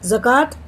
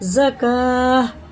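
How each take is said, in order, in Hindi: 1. शब्द का अंत t ध्वनि से होता है। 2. शब्द का अंत एक मौन h ध्वनि से होता है। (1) "नहीं पढ़ेंगे" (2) "ये हा साकिन बन जाता"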